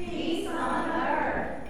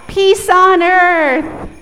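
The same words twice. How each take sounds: First: Group repeat. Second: Loud, high, slow sung call; chanted proclamation. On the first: Real, not acted. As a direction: say it back together. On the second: Shown as a demonstration. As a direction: sing it out. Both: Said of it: "repeat after me".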